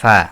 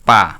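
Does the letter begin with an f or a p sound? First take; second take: f; p. First: It begins with an f sound. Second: It begins with a p sound. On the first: The speaker calls it right. "এটা হবে ফা" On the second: The speaker calls it wrong. "এটা যদি কেউ বলে পা, এটা ভুল"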